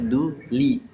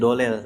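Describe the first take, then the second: First: The d is followed by a clear 'u' vowel. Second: The d is followed by an 'o'-like vowel. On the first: The speaker calls it right. "Harusnya du li" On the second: The speaker calls it wrong. "Alhamdulillah dari dolel, do bukan du"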